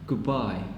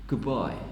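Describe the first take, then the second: First: The word 'good' ends in a b sound. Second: The word 'good' ends in a b sound.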